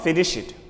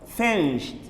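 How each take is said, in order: First: The ending adds an extra id syllable. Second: The ending is a plain t sound. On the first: The speaker calls it wrong. "Not finish it" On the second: The speaker calls it right. "We use T sound at the end"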